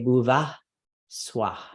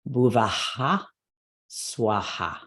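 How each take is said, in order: First: The words end in breaths with no repeated vowels. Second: The vowels repeat after each breath. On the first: It will not match how others recite it. "Not wrong to say bhuva swah, but you will not coordinate with anybody" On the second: This is how everyone recites it. "we are, in fact, going to have that echo in the beginning line"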